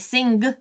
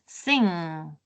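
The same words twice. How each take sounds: First: An extra g sound follows the nasal. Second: It ends on the nasal sound alone. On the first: The speaker calls it wrong. "I uh, don't say sing" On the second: The speaker calls it right. "I say just sing"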